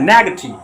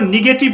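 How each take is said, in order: First: The first vowel sounds like 'eh'. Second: The first vowel sounds like 'ih'. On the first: The speaker calls it right. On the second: The speaker calls it wrong. "इसको सब निगेटिव पढ़ता रहता है, निगेटिव नहीं पढ़ा जाता है"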